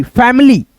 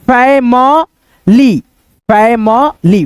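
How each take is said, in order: First: Said in the usual way. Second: "family" slowly as fai-ma-lee, with gaps; broken into syllables. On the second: Shown as a demonstration. Teacher sounds out family for learners, slow syllables. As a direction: separate "family" into three long sounds. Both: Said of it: "इसको क्या पढ़ेंगे".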